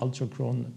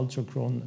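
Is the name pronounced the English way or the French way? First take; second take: English; English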